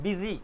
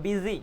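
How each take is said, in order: The two takes are said the same way.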